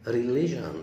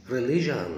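No difference in how they are said.

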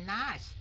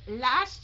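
First: "last" said with N for L, like "nast"; mistaken N sound. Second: "Last" with a clear L at the start; correct L sound. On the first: Teacher showing the student's error, N-sound "last". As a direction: swap the L of "last" for an N. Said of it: "chứ không phải là last". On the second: Teacher correcting a student's first sound, clear L in "Last". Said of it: "Last chứ không phải là last". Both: Shown as a demonstration.

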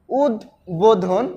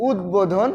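First: উদ্বোধন as উদ, pause, বোধন; split pronunciation. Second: Said in the usual way. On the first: Shown as a demonstration. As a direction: slowly separate উদ from বোধন in উদ্বোধন. (উদ্বোধন থেমে উদ, বোধন) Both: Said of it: "উচ্চারণটা এভাবে করবে".

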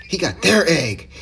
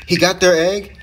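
First: Slow, stressed "their", falling at the end; emphatic statement. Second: "He got their egg?" rising at the end, higher and louder; surprised question. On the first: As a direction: lean on "their" and land it as fact. Repeats the news as confirmed. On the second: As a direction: ask "their egg?" in surprise, pitch lifting. Questions, then confirms the news. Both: Real, not acted.

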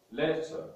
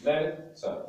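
First: Said in the usual way. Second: "Letter" split between the two t's; syllabified. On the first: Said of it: "we are going to syllabify words". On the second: Shown as a demonstration. Teacher guiding learners on syllables, "Letter" in two parts. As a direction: say "Letter" as let, then ter, with a gap. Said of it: "guide you on how to do this".

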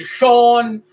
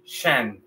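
First: "shon" with a full, drawn-out O; wrong over-full ending. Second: "shen" with a short, light E; correct English ending. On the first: Teacher shows learners what not to say, mispronounced. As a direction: stretch "shon" with a rounded Spanish O. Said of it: "no vamos a decir shon". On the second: Teacher models the ending for learners, correctly pronounced. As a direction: let "shen" drop softly, vowel reduced. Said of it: "vamos a decir shen". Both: Shown as a demonstration.

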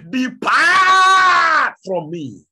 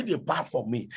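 First: Booming, drawn-out, much higher and louder command; thunderous voice. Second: Said in the usual way. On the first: Acted. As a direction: thunder it down from heaven. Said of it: "with a thunderous voice". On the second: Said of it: "As he did say".

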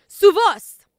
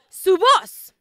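First: Su voz called out high and loud, voz hit hard; congregation call, louder. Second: Higher, louder call of the phrase; preacher calls out su voz, stressing voz; 1st take, called out. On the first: Pastor prompts the church to repeat: su voz shouted high. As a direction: lead the crowd, voz shouted up. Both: Shown as a demonstration. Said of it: "Digan, ellos conocen".

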